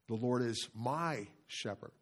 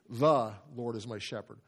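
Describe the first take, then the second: First: The stress falls on "my". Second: The stress falls on "The".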